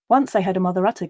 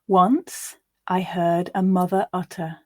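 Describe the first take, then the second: First: It is read as fast as possible. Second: It is read slowly and carefully. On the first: "This time we're going to go as fast as we can" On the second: "The first time I'll read quite slowly"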